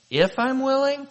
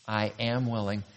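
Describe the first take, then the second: First: Incredulous question, pitched way up; Jesus. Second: Low, soft, settled answer; Jesus. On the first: Jesus questioning the leper's "if", incredulous. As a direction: echo the doubt high, as a question. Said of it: "hear him say". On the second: Jesus assuring the leper, quietly certain. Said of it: "The great I am is saying". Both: Acted.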